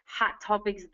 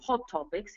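First: It is said in an American accent. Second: It is said in a British accent.

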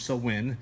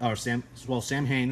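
First: The word sounds like sow-in. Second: The word sounds like sam-hain. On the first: The speaker calls it right. "Sowin is the right way to pronounce that" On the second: The speaker calls it wrong. "Samhain is what some would say"

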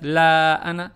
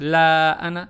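First: The vowel after 'l' is held briefly. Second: The vowel after 'l' is held briefly.

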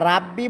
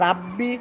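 No difference in how they are said.

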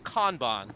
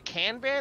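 First: It is pronounced in a Japanese way. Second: It is pronounced in an anglicized way. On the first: The speaker calls it right. "it's Kanban. ... it's Japanese" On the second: The speaker calls it wrong. "you constantly say Kanban"

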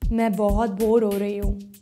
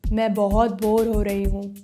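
First: It is said at a low pitch. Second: It is said at a low pitch.

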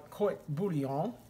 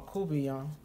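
First: The word is said fully, every sound pronounced. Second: The word is clipped, with sounds run together. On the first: The speaker calls it right. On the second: The speaker calls it wrong.

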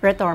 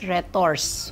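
First: The final S sound is silent. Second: The final S sound is pronounced. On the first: "but it is pronounced as Retors" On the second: "It is spelled with an S"

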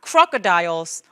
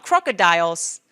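The two takes are said the same way.

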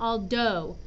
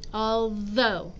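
First: The middle consonant is a D sound. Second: The middle consonant is a TH sound. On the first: The speaker calls it wrong. "It's not a D sound. It's not all do" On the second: The speaker calls it right. "It's a TH sound in the middle"

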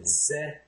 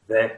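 First: The word begins with a z sound. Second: The word begins with a th sound. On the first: "But if you say ze" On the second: "They don't say the"

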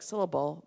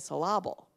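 First: The stress is on the first syllable. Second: The stress is on the second syllable. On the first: "a word like syllable" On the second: "they'll say syllable"

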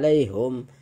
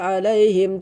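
First: The vowel after h is u. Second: The vowel after h is i. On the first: The speaker calls it wrong. "tidak dibaca alaihum" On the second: The speaker calls it right. "alaihim dibaca alaihim"

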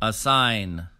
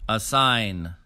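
Both takes have the same delivery.

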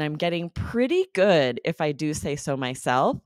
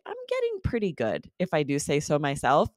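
First: The words 'pretty good' are strongly emphasized. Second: The words 'pretty good' are not emphasized. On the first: The speaker means really good. "you kind of have to emphasize that pretty good, just like quite good for it to mean really" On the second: The speaker means fairly good. "If I switch the intonation, I just say, ... That sort of means like fairly"

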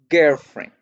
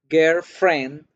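First: The stress is on the first part, girl. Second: The stress is on the second part, friend. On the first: A romantic partner. "hago el acento en girl" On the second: Just a friend who is a girl. "estoy haciéndole la fuerza o el acento a la palabra friend"

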